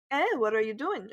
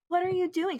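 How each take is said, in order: First: Mock mean teacher challenge, near usual pitch; curt "eh" before a mock accusing question. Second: Much higher-pitched mock teacher; exaggerated teacher question. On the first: Teacher catching student in class, mock mean. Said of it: "so mean like that". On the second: Student parodying how teacher didn't ask, exaggerated. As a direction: overdo it as how she didn't sound. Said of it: "she wasn't like".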